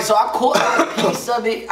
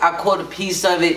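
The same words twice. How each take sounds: First: Words breaking into a laugh. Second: Said in the usual way. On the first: Real, not acted. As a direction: still chuckling through the line. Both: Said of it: "I'm trying to keep a straight face".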